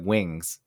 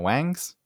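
First: The vowel sounds like the 'i' in 'sit'. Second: The vowel sounds like the 'a' in 'bang'. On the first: "That's what I meant was like wings" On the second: "just pronouncing it wangs"

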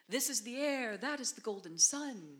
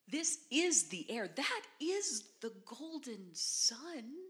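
First: It is said flatly, without meaning. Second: It is said with expressive, bewildered inflection.

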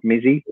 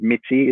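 First: The middle consonant is a 'z' sound. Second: The middle consonant is a 'ts' sound. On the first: The speaker calls it wrong. "Not Mizzy" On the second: The speaker calls it right. "it is Mitzi"

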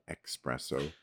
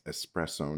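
First: It starts with 'ex', with a k sound. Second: It starts with 'es', with no k sound. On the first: The speaker calls it wrong. "not espresso. There's no X in espresso" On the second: The speaker calls it right. "it's espresso"

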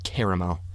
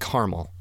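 First: The word is said with three syllables. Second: The word is said with two syllables. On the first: The speaker calls it wrong. "It's not caramel" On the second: The speaker calls it right. "We don't say the second A in caramel"

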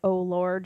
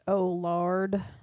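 First: It is said in a plain, neutral voice. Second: It is said in a Southern lady's accent. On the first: "instead of like" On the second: "like a Southern lady"

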